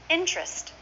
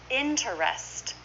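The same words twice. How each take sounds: First: "Interest" as IN-trest; two syllables. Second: Slow "Interest", in-ter-est; full three syllables. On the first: Teacher modelling the short form, "Interest" as in-trest. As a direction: drop the middle vowel of "Interest". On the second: Teacher showing the long form, "Interest" slowly in three syllables. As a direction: sound out the middle "er" of "Interest". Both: Shown as a demonstration. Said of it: "we say this is two syllables".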